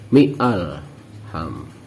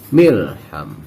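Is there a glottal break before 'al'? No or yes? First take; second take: yes; no. First: A glottal break separates mi from alham. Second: The syllables run together without a glottal break. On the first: The speaker calls it wrong. "tidak boleh lagi mi'alham. Mi'alham itu bacaan yang salah" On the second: The speaker calls it right. "Kalau disambung otomatis bacaannya adalah milham"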